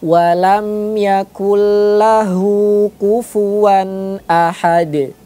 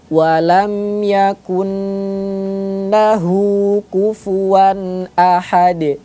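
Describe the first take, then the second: First: The n merges fully into the l sound. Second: The n before lahu carries a nasal hum. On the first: The speaker calls it right. "masuk langsung ke huruf lamnya. Nunnya sudah tidak dibaca lagi" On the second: The speaker calls it wrong. "Ini bacaan yang kurang tepat ya, ... ada dengungnya"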